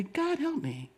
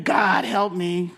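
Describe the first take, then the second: First: "God help me" breathed very softly, almost a whisper; soft surrendered prayer. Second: Said in the usual way. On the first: Shown as a demonstration. Pastor teaching the congregation a hushed, gentle prayer. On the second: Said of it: "So instead of saying".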